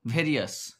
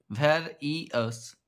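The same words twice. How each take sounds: First: Said in the usual way. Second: ভ্যারিয়াস slowly in three parts, var, i, ous; syllable by syllable. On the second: Shown as a demonstration. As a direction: split ভ্যারিয়াস with a gap after each syllable. (ভ্যারিয়াস ধীরে ভেঙে ভেঙে) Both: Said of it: "সিলেবলে ভাঙলে এটা হবে".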